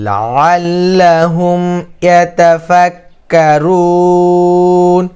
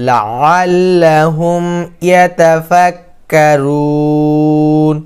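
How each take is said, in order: The two takes are said the same way.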